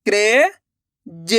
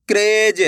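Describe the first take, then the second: First: "क्रेज" split slowly as kre, long pause, ja; sounded out by letters. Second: Said in the usual way. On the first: Shown as a demonstration. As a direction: break "क्रेज" in two, the first part rising. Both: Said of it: "अक्षर का उच्चारण करके".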